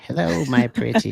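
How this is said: It is said in a wicked witch voice.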